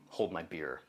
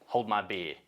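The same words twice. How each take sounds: First: Said in the usual way. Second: "beer" said as an Australian "bee-ah"; Australian accent. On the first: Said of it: "Oh, excuse me". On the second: Acted. Narrator voicing Liam the sheep farmer, Australian accent. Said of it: "the way Australians say beer".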